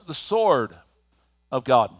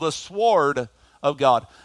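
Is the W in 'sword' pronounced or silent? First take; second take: silent; pronounced. First: The W in sword is silent. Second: The W in sword is pronounced aloud. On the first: This is how more articulate people say it. "But for you more articulate folks" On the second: This is how it is said where the speaker comes from. "There's a W in there, ... but you pronounce it"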